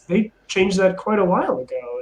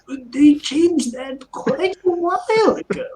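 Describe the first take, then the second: First: It is said in his normal voice. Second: It is said in a put-on old man voice.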